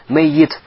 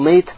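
First: The y sound is long and doubled. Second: The y sound is short and single. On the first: Someone who is mortal and will die one day. "Если произносится с саждидом" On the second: A dead person. "если произносится с сукуном"

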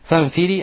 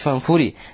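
First: The word is said with an i vowel. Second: The word is said with a u vowel. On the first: "более известно фанфири с касрой над или под фа" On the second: "а можно сказать фанфури"

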